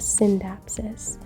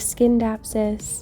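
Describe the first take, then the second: First: No k sound follows the opening s. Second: A k sound follows the opening s. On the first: The speaker calls it right. "C's in Latin are usually pronounced as S's, so you kind of just like glaze right over it" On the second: The speaker calls it wrong. "not a Skindapsus"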